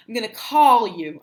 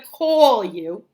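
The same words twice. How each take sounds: First: "call" with an open ah, "cahl"; standard vowel. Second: "call" as a New Jersey "cawl"; Jersey accent. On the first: Teacher modelling correct speech, "call" as "cahl". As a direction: stress "call" without the Jersey aw. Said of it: "I'm not gonna call you". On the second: Teacher showing an old habit, Jersey "cawl". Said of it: "It was like that for years". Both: Shown as a demonstration.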